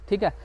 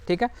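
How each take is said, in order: Both takes have the same delivery.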